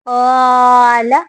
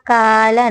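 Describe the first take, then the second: First: The long vowel is full and heavy. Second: The long vowel is thin and light. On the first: The speaker calls it right. "इसको मोटा करके पढ़ना है" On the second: The speaker calls it wrong. "अलिफ को हम का नहीं पढ़ेंगे, काला काला नहीं"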